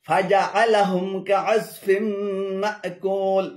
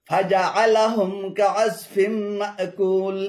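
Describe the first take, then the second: The two takes are said the same way.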